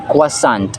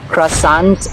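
First: The first syllable sounds like 'kwa'. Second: The first syllable sounds like 'cra'.

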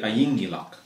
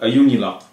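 First: It is said in the local dialect. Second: It is said in the standard Nuuk dialect.

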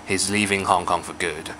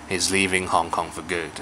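First: The word 'for' is weak and reduced. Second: The word 'for' is weak and reduced.

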